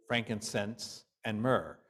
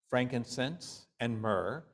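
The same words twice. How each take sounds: The two takes are said the same way.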